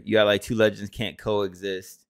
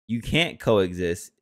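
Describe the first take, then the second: First: Said in the usual way. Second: Slow, with can't punched; slow emphatic repeat, hitting can't; stress on can't. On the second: Shown as a demonstration. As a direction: lean on can't, drawn out slowly.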